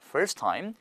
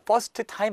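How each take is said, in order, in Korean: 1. 'first'의 끝 t는 빠져요. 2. 'first'의 끝 t는 발음해요. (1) "T 빠질 거니까" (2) "아니죠?"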